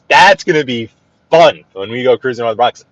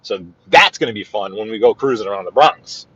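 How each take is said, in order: First: Louder, punching "That's" up front; emphatic repeat. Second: Said in the usual way. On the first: Real, not acted. Host repeats the Bronx cruise plan to viewers, louder and emphatic. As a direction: say it again like you mean it.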